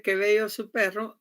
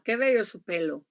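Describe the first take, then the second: First: Perro with a clear rolled double R; Qué bello su perro, trilling the rr in perro; teacher demo of perro with rolled rr; correct perro. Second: Pelo with a single light L in place of the rr; Qué bello su pelo, the slip that swaps perro for pelo; teacher demo of the pelo mix-up. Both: Shown as a demonstration. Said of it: "En vez de decirle".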